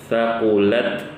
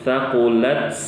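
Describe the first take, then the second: No difference in how they are said.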